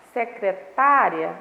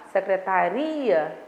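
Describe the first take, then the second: First: Secretária slowly, TÁ loud and long; stress on TÁ. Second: Secretaria slowly, with RI stressed. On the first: Teacher points out the tonic syllable, TÁ stressed. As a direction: draw out and punch the TÁ in secretária. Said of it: "a sílaba tônica vai ser o tá". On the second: Teacher turns to the second word, RI stressed. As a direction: draw out the word, landing on RI in secretaria. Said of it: "na sílaba ri". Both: Shown as a demonstration.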